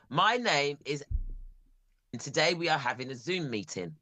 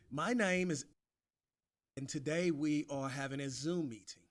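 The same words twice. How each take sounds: First: English accent. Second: A weak try at a British accent; attempted British accent. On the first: British man gives a sample sentence in his English accent. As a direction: model line in his own British accent. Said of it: "I'll give you an English sentence". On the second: [name] tries repeating the sentence in a bad British accent. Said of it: "That is rubbish, [name]". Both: Shown as a demonstration.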